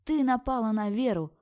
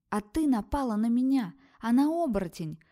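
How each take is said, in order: First: High, loud, accusing yell; loud shout. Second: Shouting back. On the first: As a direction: hit «Ты» hard and shout the rest. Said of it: "громко закричала". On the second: Heroine shouts back in fight. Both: Acted.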